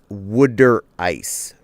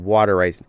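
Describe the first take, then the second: First: Water is said with a local 'wooder' sound. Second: Water is said with a standard American vowel. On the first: The speaker calls it right. "Must pronounce it as a Jerseyan" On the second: The speaker calls it wrong. "I keep hearing it as uh"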